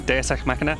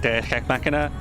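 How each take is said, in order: First: The phrase is pronounced in an ordinary, smooth way. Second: The phrase is pronounced in an odd, awkward way. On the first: The speaker calls it right. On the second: The speaker calls it wrong.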